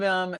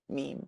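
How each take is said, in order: First: The word rhymes with 'gem'. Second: The word rhymes with 'team'. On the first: The speaker calls it wrong. "I was a mem" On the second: The speaker calls it right. "I now know and understand meme"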